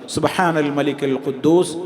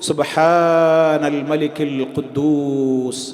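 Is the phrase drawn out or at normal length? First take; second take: normal; drawn out. First: The phrase is said at normal length. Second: The phrase is drawn out and lengthened.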